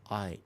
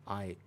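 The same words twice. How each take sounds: No difference in how they are said.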